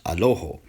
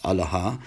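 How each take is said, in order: First: It starts with a and ends in o. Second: It starts with a and ends in a. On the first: "in Western Syriac, it's pronounced Aloho" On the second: "in Eastern Syriac, Eastern Syrian Aramaic, it's pronounced Alaha"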